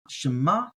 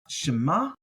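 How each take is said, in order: No difference in how they are said.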